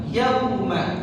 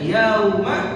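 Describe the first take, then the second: First: The first vowel is kept short. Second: The first vowel is drawn out long. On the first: The speaker calls it right. "perhatikan juga yauma" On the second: The speaker calls it wrong. "diseret bacanya, kurang tepat"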